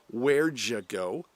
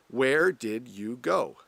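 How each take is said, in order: First: It is said fast and reduced. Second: It is said slowly and fully.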